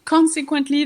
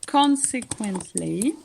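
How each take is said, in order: First: Said in the usual way. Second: Consequently said slowly, stress on CON; stress on first syllable. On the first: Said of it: "is on the first syllable". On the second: Shown as a demonstration. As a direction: model Consequently slowly for students, leaning on CON. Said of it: "the stress in, is on the first syllable".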